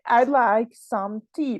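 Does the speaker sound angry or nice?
angry. It is said in an angry tone. The person is annoyed. "probably this person can be angry"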